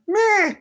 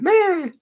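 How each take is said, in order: First: Slow drawn-out cat voice; imitating the cat. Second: High cat-like meh; lightly voiced cat calling; imitating the cat. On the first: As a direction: stretch meh like a cat calling. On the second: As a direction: pitch meh up like a mew. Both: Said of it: "She's already named us".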